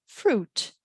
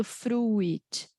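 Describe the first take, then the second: First: "fruit" said froot, no I sound; "fruit" as froot with a silent I; I left silent. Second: "fruit" said froo-it, U and I both sounded; "fruit" wrongly split into froo-it. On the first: Teacher showing the right way: "fruit" said froot. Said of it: "eu não pronuncio a letter I". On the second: Teacher showing the wrong way: "fruit" said froo-it. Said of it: "Eu não falo". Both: Shown as a demonstration.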